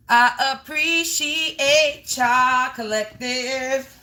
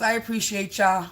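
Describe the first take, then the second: First: Slow, drawn-out and sincere; heartfelt thanks. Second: Said in the usual way. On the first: Real, not acted. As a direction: stretch out appreciate like you mean every syllable.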